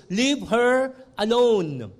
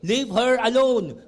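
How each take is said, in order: First: "Leave" hit hard, slow deliberate reading; stress on leave. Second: "her" given the weight, a little quicker; stress on her. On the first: Preacher reads Jesus's rebuke, weight on "Leave". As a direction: lean on "Leave" and draw the line out slowly. Jesus quote read first time. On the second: Preacher repeats Jesus's rebuke, stressing "her". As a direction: put the emphasis on "her" in the repeat. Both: Acted.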